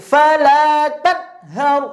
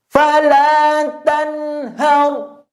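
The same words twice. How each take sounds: First: The n sound is cut off abruptly before hau. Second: The n sound rings on briefly before hau. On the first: The speaker calls it wrong. "tidak boleh" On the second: The speaker calls it right. "Ada suara sisa sedikit di nunnya"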